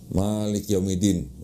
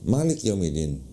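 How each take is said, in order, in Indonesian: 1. Vokalnya dipanjangkan. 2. Vokalnya pendek dan cepat. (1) "kalau kita baca" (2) "cepet dia, nggak nggak dipanjangin gitu"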